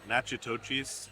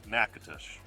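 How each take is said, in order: First: The name is said with four syllables ending 'ochis'. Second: The name is said with three syllables ending 'osh'. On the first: The speaker calls it wrong. "We pronounced it Nachitochis, and I'm sure like that's nails on a chalkboard to you guys" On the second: The speaker calls it right. "These are actually called Nakatosh"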